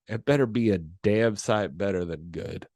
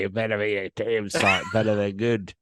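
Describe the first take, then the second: First: It is said in the speaker's plain accent. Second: It is said in an Australian accent.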